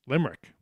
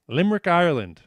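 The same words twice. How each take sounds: First: Said in the usual way. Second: Limerick, Ireland said louder and higher as a punchline; triumphant louder gotcha on "Limerick, Ireland"; emphatic reveal. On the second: Shown as a demonstration.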